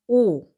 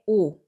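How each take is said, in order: First: The vowel is held longer and clearer. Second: The vowel is said shorter and relaxed. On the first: "조금 더 길고 확실하게" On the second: "자연스럽게"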